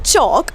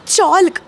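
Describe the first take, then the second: First: No l sound is heard in the word. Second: An l sound is heard before the k. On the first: The speaker calls it right. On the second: The speaker calls it wrong.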